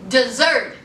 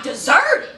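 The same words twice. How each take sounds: First: Deserted said low and flat with a falling end; deadpan repeat. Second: Giggling through the word deserted; laughing. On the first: Host turns the empty airport into a joke about Maria. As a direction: drop Deserted low as a dry punchline. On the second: Host laughing as she describes the empty airport. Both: Shown as a demonstration.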